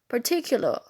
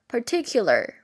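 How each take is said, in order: First: The R after the final vowel is silent. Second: The R after the final vowel is pronounced. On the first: "in the non-rhotic accent" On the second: "In rhotic accent"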